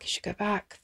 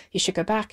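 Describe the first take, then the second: First: Zachter herhaald, in zichzelf mompelend; muttering to herself. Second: Said in the usual way. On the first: Retold or imitated. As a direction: herhaal het zachtjes, alsof tegen jezelf. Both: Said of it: "she talked to herself as she drove".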